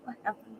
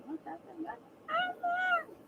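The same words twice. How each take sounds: First: Said in the usual way. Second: Very high, slow, drawn-out whine of the question; desperate whine. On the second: Real, not acted. Begging chat again, very high drawn-out whine. Whining for answers.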